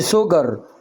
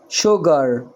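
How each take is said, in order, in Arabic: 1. الكلمة تبدأ بصوت س. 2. الكلمة تبدأ بصوت ش. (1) "ما قلتش سجر" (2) "شجر شجر"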